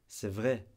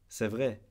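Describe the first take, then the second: Both takes have the same delivery.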